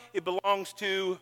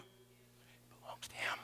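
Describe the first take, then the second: First: Said in the usual way. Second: Hushed whisper of surrender. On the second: Shown as a demonstration. Preacher whispering that life belongs to Him. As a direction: breathe it out, barely voiced.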